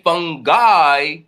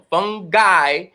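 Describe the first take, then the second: First: The word is said with a lower tone. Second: The word is said with a high tone. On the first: It has a whole different meaning. "it's gonna give a whole different connotation" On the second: Someone is smelly, nasty and gross. "upper tone"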